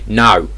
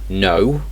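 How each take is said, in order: First: It is said in a Cockney accent. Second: It is said in a standard British accent. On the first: "In Cockney English, you'd say no" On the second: "in regular English, you'd say no"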